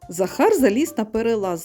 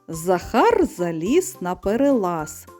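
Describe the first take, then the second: First: The line is read at a fast pace. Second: The line is read at a slow pace. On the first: "А тепер швидко" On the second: "я зараз її зачитаю повільно"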